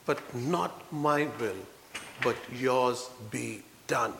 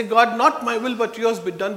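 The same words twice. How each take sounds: First: Soft, slow, yielding prayer; slow quiet prayer of giving in; slow hushed surrender. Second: Louder, confident declaration; strong preaching of the prayer; firm proclaimed prayer. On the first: Jesus' surrender prayer, quoted. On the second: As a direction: declare it boldly to the congregation. Same prayer, now proclaimed. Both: Retold or imitated.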